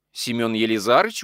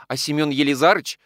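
First: Mildly puzzled echo, rising at the end; surprised. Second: Said in the usual way. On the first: A narrator's reading. Mistress echoing the maid's question, mildly surprised. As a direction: repeat the name in understated surprise. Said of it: "удивилась Екатерина Егоровна".

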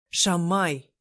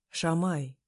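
First: Louder indignant call of Шамай. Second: Dissuading. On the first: Demir indignant at his friend, loud Шамай. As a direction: throw out Шамай in protest. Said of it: "возмутился Демир". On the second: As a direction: say Шамай as if about to talk her out of it. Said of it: "будто собираясь меня отговаривать". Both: Acted.

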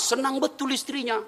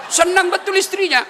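First: Said in the usual way. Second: Excited emphasis. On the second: Shown as a demonstration. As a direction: burst out "Senang betul istrinya" with gusto.

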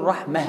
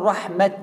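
First: رحمة ending in a soft h sound, said rahmah; stopping on taa marbuta. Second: رحمة ending in a clear t, said rahmat; stopping on open taa. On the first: Teacher showing students the stop on رحمة with h. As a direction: end رحمة on a breathy h, no t. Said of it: "بالتاء المربوطة أقول رحمة". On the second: Teacher showing students the stop on رحمة with t. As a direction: close رحمة on a crisp final t. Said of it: "لو بالتاء المفتوحة أقول رحمة". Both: Shown as a demonstration.

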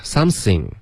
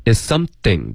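First: "something" mispronounced with an S for TH. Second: "something" with a true TH, tongue at the teeth; correct TH sound. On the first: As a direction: imitate a learner saying sam-sing for "something". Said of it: "你发成嘶了". (模仿错误发音，“something”的th发成嘶) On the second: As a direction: make the TH in "something" a dental fricative. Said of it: "T H的音". (“something”中th舌尖碰齿) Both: Shown as a demonstration.

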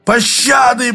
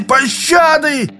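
First: High, strained plea for mercy; begging cry. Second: Much higher, slow, stretched scream; drawn-out desperate shout. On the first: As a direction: cry out for mercy in mock panic. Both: A narrator's reading. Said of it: "сдавленно проорал".

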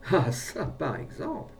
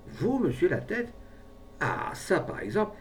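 First: Surprise turning to delight; delighted amazement. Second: High, rising amazed question; keen surprise. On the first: Brave man repeats himself on hearing the offer, delighted. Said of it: "au ravissement, répéta". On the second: Brave man hears the pharmacist's offer, keenly surprised. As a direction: take it in with amazement. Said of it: "de l'expression de la plus vive surprise". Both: A narrator's reading.

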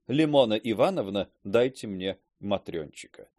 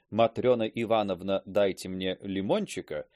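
First: A spoonerism said straight; slip of the tongue. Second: Said in the usual way. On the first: Shown as a demonstration. Teacher blurting «матрёнчика» to a lady, swapped syllables. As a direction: swap the syllables: «Лимона Ивановна» and «матрёнчика», said as if meant. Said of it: "да вдруг выговорил". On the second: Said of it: "хотел один раз сказать даме".

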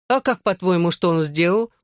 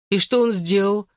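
First: Lightly mocking counter-question; understated teasing tone. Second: Said in the usual way. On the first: A narrator's reading. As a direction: throw the question back with mild derision. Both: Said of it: "насмешливо спросила Лиззи".

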